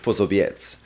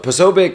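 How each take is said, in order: First: The name is pronounced with a Polish sound. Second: The name is pronounced with an American English sound. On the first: "in Polish it's Posobiec" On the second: "the way we say it in the like like in American English"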